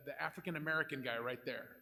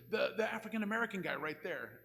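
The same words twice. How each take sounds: First: Said in the usual way. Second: Impatient louder repeat. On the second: Retold or imitated. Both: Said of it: "And he goes".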